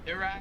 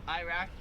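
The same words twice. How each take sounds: First: It is said with an Australian accent. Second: It is said with an American accent. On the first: "here they pronounce it Iraq" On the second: "we pronounce it Iraq"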